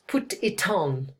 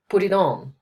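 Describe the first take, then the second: First: It is spoken in a British accent. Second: It is spoken in a flowing American accent. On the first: "In British English, we'll, we'll say" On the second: "in America, they would say ... it flows more"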